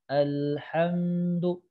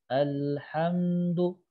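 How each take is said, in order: Both takes have the same delivery.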